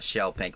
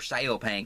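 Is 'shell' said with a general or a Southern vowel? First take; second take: general; Southern. First: The first word has a short 'shell' vowel. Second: The first word has a Southern 'shale' vowel.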